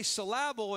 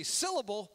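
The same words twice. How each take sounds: First: "syllable" as suh-LAB-ul, middle beat stressed; wrong-syllable stress. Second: Said in the usual way. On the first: Shown as a demonstration. Preacher explaining his joke, "syllable" stressed as suh-LAB-ul. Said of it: "If you say syllable and emphasize the one part". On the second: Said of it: "But if you say syllable, we understand that".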